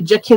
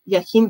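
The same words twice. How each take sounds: First: The name is pronounced the English way. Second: The name is pronounced the Polish way. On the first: "maybe Jachin is how you pronounce it" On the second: "I would pronounce it Jachin, but I'm Polish"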